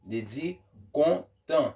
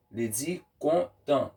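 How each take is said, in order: Both takes have the same delivery.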